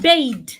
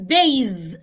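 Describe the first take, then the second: First: The middle consonant sounds like a d. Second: The middle consonant is a soft th sound. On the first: The speaker calls it wrong. "It's not bathe. Bathe is pronounced bathe is spelled B A D E" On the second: The speaker calls it right. "B A T H E is bathe"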